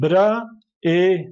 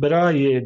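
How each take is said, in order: First: The two vowels are said apart with no glide. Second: A y glide links the two vowels smoothly. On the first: The speaker calls it wrong. "E demiyoruz" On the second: The speaker calls it right. "Brae diyoruz"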